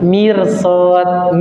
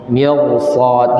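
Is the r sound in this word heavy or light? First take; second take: light; heavy. First: The r is pronounced light and thin. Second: The r is pronounced heavy and full. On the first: The speaker calls it wrong. "Enggak boleh mirsad, mirsad salah" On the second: The speaker calls it right. "Di sini hukum ra-nya tebal, bukan tipis"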